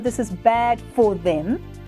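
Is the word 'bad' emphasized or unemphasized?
unemphasized. The word bad gets no special emphasis. The speaker calls it wrong. "Notice you aren't going to go"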